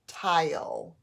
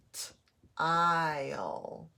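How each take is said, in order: First: Said in the usual way. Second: "T-ile" with a lone t, pause, then long ile; sounding out. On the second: Shown as a demonstration. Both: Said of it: "to separate the two syllables".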